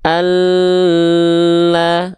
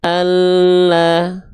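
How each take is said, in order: First: ALLAH with an overlong L; L wrongly held. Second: ALLAH with a short press on the doubled L; L only pressed. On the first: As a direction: stretch the l in "Allah" far too long on a higher note. ("Allah", lam ditahan terlalu lama) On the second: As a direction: lean briefly on the l in "Allah", then release. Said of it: "Dia cukup ditekan saja". ("Allah", lam ditekan saja) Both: Shown as a demonstration.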